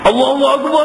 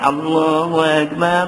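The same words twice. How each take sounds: First: It is said plainly, quickly and forcefully. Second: It is drawn out with a nasal hum. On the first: This is a plain call without ornament. "dia deras semacam begitu aja azan Bilal ni" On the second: This is a showy, ornamented call. "Ni yang dengan dengung"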